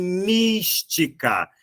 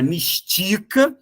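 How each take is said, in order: First: Mística, slow, with MÍS drawn out strong; stress on first syllable. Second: Mistica with TI as the strong syllable; stress on middle syllable. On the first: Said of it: "Essa é a sílaba mais forte". (mística devagar, com força no MÍS) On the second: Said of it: "não é mistica". (mistica com a tônica no TI) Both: Shown as a demonstration.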